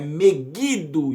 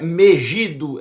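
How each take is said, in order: First: The middle consonant is a hard G sound. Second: The middle consonant is a soft J sound. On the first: The speaker calls it right. "existe som de G, de gato" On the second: The speaker calls it wrong. "Não existe Megido, não existe som de J"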